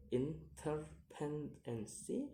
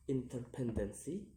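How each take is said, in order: First: "interdependency" split into syllables, rising at the end; separated syllables on "interdependency". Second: Said in the usual way. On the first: Shown as a demonstration. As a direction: sound out "interdependency" piece by piece. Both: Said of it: "count the word syllable backwards".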